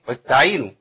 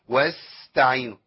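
First: The s sound is almost lost. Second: The s sound is hissed far too long. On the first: "تضيع مني خالص ما تنفعش" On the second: "كتير قوي"

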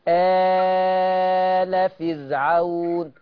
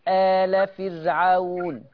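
First: The opening vowel is held for four counts. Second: The opening vowel is held for two counts. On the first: "شفت عملت اتنين أربعة ستة ازاي؟" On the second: "شفت عملت اتنين أربعة ستة ازاي؟"

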